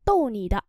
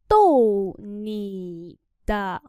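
First: Said in the usual way. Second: Tô nì đạ read slowly; slow demo. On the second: Shown as a demonstration. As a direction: drag out Tô nì đạ. (đọc chậm Tô nì đạ) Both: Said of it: "Trêu bạn thôi".

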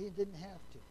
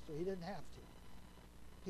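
First: Said in the usual way. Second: Didn't drawn out slowly and softly; slow emphasis. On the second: Shown as a demonstration. Preacher stressing Jesus's choice, slow and hushed.

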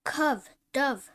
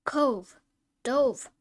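First: "Cove, dove" read with a short u, like "cuv, duv"; short u misread. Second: "Cove, dove" read with a long o, like "cohv, dohv"; long o corrected. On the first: Student reading the phonics list aloud, misreading with a short u. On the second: Student rereading the phonics list after the rule, long o. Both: Real, not acted. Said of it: "Long O as O".

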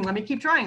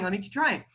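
First: Mock determined kid, leaning on trying; stubborn child repeating Let me keep trying; insistent kid. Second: Trailing off, less sure this time; second Let me keep trying, tired and fading; fading repeat. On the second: Retold or imitated. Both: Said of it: "It might be like".

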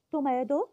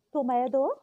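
The two takes are said the same way.

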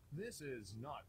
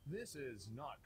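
Both takes have the same delivery.

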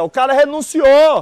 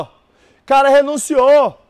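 First: Said in the usual way. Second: "renunciou" drawn out slowly; slow emphatic repeat. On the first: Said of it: "repeats the phrase for the class". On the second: Shown as a demonstration. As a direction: spell it out slowly to the class, stretching "renunciou". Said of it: "repeats the phrase slowly". (professor repete devagar, enfatizando "renunciou")

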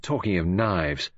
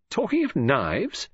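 First: Said in the usual way. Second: "talking of knives?" higher, slow, rising at the end; questioning echo. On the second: Acted. Queries the other's words back.

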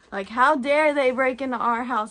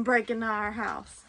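First: Louder, hammed-up how dare they; mock offended outburst; mock indignation. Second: Said in the usual way. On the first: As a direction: play up the dog's outrage. Mock outrage at dog logic.

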